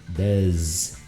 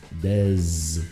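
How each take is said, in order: First: The word ends with a buzzing z sound. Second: The same.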